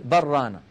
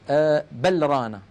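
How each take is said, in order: First: The l merges into the following r. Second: The l is pronounced clearly before the r. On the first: The speaker calls it right. "تقول بل رانا" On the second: The speaker calls it wrong. "هكذا مظهرة"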